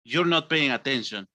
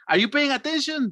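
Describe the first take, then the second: First: It is said in an angry, annoyed tone. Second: It is said in a happy, cheerful tone.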